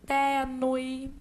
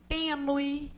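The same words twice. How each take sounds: First: The stressed vowel is open. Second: The stressed vowel is closed. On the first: This is how it is said in Portugal. "essas vogais são lidas como abertas" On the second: This is how it is said in Brazil. "porque a gente fala fechado"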